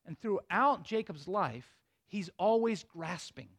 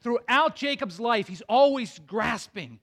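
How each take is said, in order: First: Slow, quiet first telling, dropping the voice; hushed slow setup; slow and soft. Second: Louder, punching THROUGHOUT and ALWAYS; preacher hammering the point home; emphatic restatement. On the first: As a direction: lay it down gently and slowly. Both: Shown as a demonstration. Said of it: "So here's the point".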